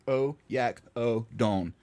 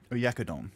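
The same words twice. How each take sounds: First: Oyak-o-don spelled out slowly, stress on yak; slow syllable drill. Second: Said in the usual way. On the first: Shown as a demonstration. Practicing the dish name for the app, slow and syllable by syllable. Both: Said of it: "the emphasis is on the yak".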